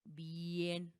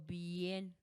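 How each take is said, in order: No difference in how they are said.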